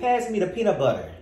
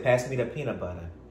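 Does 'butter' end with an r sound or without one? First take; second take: with r; without r. First: The word butter ends with an r sound. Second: The word butter ends with an uh sound. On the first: "I don't say peanut butter" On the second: "I replace the ER words with an A"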